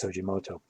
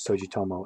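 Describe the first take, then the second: First: The name is said ending in moto. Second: The name is said ending in tomo. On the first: The speaker calls it right. "but it's Sojimoto" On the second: The speaker calls it wrong. "periodically I mispronounce Sugimoto as Sojitomo"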